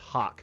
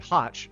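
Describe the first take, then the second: First: The name ends with a 'k' sound. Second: The name ends with a 'ch' sound. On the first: This is how the owner wants it said. "the reality and perception should be that it is" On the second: This is how the spelling suggests it is read. "everyone should say Hotch"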